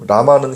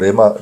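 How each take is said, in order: First: The first syllable has the vowel 'a'. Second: The first syllable has the vowel 'e'. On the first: This is the Hebrew pronunciation. "라마는 히브리식 발음이라고 보시면 되고" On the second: This is the everyday Aramaic pronunciation. "레마는 당시 유대인들이 삶의 현장에 쓰던 실제 아람어 발음입니다"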